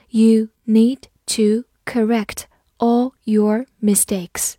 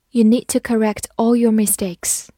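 First: Slow, word-by-word model reading. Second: Said in the usual way. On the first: Shown as a demonstration. Teacher reads the example sentence for learners, slowly, word by word. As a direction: read it slowly, a gap after each word. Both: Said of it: "好，慢读一遍".

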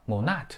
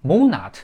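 First: "monat" stressed on the second syllable; wrong stress. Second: "Monat" stressed on the first syllable, loud then falling; correct stress. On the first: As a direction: demonstrate the mistake moNAT, weight on the end. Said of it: "读成了". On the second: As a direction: hit MO in "Monat", let the end drop. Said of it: "这也是错的". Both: Shown as a demonstration.

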